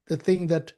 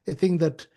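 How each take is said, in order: Both takes have the same delivery.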